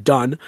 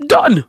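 First: Said in the usual way. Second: Done in a higher, hammed-up Cockney; weird Cockney. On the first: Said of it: "I don't know how to say one word". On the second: Shown as a demonstration. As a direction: clip Done like a bad Cockney fairy. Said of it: "how to say one word in a weird Cockney accent".

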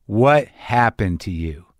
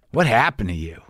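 First: WHAT drawn out, the whole question slow; slow, weighted "What" opening the repeated question. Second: Concerned, blunt question at normal pace; retold confronting question. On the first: Retold or imitated. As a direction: stretch "What happened to you" slowly, word by word. Woman repeats her question more slowly. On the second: Woman confronts him, then repeats it.

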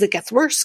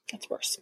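First: Said in the usual way. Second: Hushed, voiceless whisper; whispered aside. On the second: Real, not acted. Vlogger warning viewers the story gets worse, whispered.

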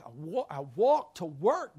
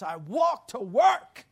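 First: Said in the usual way. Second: "I walked to work." louder and slower, leaning on walked; slow loud insistence that he walked to work; emphatic repeat. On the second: Real, not acted.

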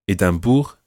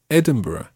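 First: "Edinburgh" as French "Édimbourg", ending in "boor"; French version. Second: Said in the usual way. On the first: Shown as a demonstration. Teacher translating town names, "Edinburgh" said as French Édimbourg. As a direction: say the first "Edinburgh" with French vowels and nasal middle. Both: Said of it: "there are French versions of certain towns".

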